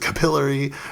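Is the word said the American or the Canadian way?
Canadian. It is said the Canadian way.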